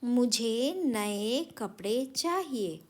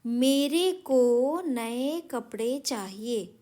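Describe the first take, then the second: First: Corrected sentence said slowly; teacher reads the corrected sentence slowly; slow correct reading. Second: Each word dragged out to show the error; teacher reads the wrong sentence slowly and loudly; slow reading. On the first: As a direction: read the fixed sentence slow and clear. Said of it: "यानी वाक्य बन गया". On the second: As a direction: read the faulty sentence slowly. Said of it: "थोड़े अटपटे लग रहे हैं". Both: Shown as a demonstration.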